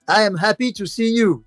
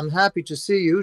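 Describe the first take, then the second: First: It is said with a French accent, uncontracted. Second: It is said without a French accent, contracted. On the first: "je prends moi-même un accent français" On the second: "à la place de dire"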